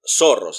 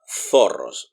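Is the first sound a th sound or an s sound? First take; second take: s sound; th sound. First: The first sound is a plain s. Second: The first sound is a lisped th.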